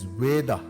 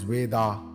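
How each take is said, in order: First: The word ends in a short a vowel. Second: The word does not end in short a. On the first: The speaker calls it right. "pronounced as Veda" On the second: The speaker calls it wrong. "and not as Veda"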